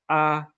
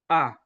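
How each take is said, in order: First: The pitch stays high and level. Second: The pitch goes down during the vowel. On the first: "We have the high flat" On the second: "we have the falling tone"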